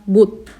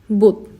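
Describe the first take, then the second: The two takes are said the same way.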